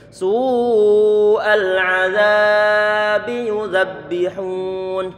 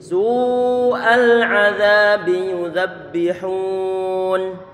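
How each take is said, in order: First: The vowel in azabi is drawn out. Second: The vowel in azabi is kept short. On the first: The speaker calls it wrong. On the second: The speaker calls it right.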